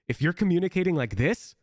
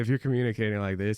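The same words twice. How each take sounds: First: It is spoken with strong intensity and energy. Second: It is spoken flatly with little intensity. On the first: Teammates will hear and register the call. The speaker calls it right. "I'm speaking with more intensity" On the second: Teammates may not register the call. The speaker calls it wrong. "I make no promises"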